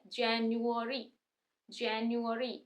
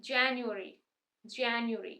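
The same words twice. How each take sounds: First: Slow, word drawn out by syllables; slow demo. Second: January said at a quicker speed; quicker demo. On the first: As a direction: say January slowly, sound by sound. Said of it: "अब थोड़ा जल्दी से बोलेंगे". (धीरे-धीरे, हर हिस्सा अलग) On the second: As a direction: run January together smoothly. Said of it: "अब थोड़ा जल्दी से बोलेंगे, स्पीड से". (थोड़ा जल्दी, स्पीड से) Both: Shown as a demonstration.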